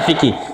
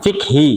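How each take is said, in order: First: The word ends with a kih sound. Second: The word ends with a khi sound. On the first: This is the Indonesian form of the word. "Indonesia fikih" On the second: This is the Arabic reading of the word. "Fikhi, gitu ya"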